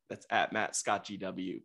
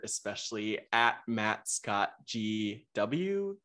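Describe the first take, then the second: First: Said in the usual way. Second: "at Matt Scott G W" said slowly, each letter spelled out; slow spelled-out handle. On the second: Shown as a demonstration.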